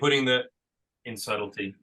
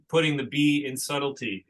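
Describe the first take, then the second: First: The letter B is left silent. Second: The letter B is spoken aloud. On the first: The speaker calls it right. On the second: The speaker calls it wrong.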